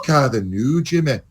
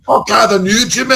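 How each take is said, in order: First: A soft, rolling Scottish accent. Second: A harsh, clipped Scottish accent. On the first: The speaker calls it right. "one sounds very nice and rolling" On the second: The speaker calls it wrong. "one sounds very harsh"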